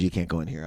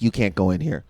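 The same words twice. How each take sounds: First: Low, soft hint of a Jamaican nurse; Jamaican accent. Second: Said in the usual way. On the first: Friend mimics the Jamaican nurse at the door, low Jamaican accent. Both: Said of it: "The Jamaican lady".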